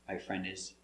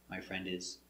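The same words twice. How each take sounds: The two takes are said the same way.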